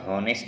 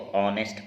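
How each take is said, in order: First: The word begins with an audible h sound. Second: The word begins directly with a vowel sound. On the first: The speaker calls it wrong. "इसको हॉनेस्ट नहीं पढ़ते friends" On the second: The speaker calls it right. "इसको ऑनेस्ट पढ़ते हैं"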